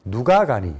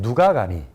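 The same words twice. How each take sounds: Both takes have the same delivery.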